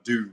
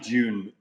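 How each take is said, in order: First: The word starts with a plain 'd' sound. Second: The word starts with a 'dy' or 'j' sound. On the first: This is the American way, adopted to be understood. "I've lived in America for long enough now that I'm Dune" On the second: This is the speaker's own original way. "I say June"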